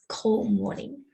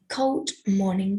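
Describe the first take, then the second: First: The D sound in cold is dropped. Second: The D sound in cold is clearly heard.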